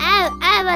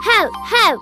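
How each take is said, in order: First: The word starts with a vowel, no h. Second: The word starts with a clear h sound. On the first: The speaker calls it wrong. "ಅದು ಆವ್ ಆವ್ ಅಲ್ಲ" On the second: The speaker calls it right.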